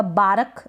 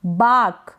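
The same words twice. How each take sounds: First: बारक as baa-ruk, the R fully sounded; slow बारक with an overdone R; wrong full R. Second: बाक as one long syllable, no R; long open vowel straight into K in बाक; silent R. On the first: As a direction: give बारक a second syllable on the R. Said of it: "नहीं". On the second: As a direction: say बाक with the R dropped. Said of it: "बाक करेंगे". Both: Shown as a demonstration.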